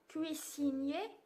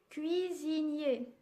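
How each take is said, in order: First: The middle consonant is a hissing S sound. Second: The middle consonant is a buzzing Z sound. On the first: The speaker calls it wrong. "je ne dis pas cuisinier" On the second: The speaker calls it right. "je dis cuisinier. Ici, le S se prononce Z"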